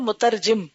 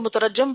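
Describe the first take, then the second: First: The last syllable has the vowel 'i'. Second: The last syllable has the vowel 'a'. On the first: Someone who translates. The speaker calls it right. "तो ये लफ्ज है मुतरजिम, तर्जमा करने वाला" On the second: Someone who is stoned. The speaker calls it wrong. "बहुत से लोग इसको मुतरजम पढ़ते हैं"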